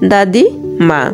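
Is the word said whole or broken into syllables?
broken. The word is broken into separate syllables.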